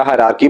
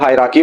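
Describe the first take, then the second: First: हायरार्की as "ha-raar-kee"; second accepted variant. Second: हायरार्की as "haai-raa-kee"; first accepted variant. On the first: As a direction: say हायरार्की with an R sounded before "kee". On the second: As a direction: say हायरार्की with a light, dropped R before "kee". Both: Shown as a demonstration. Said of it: "कोई फर्क नहीं पड़ने वाला".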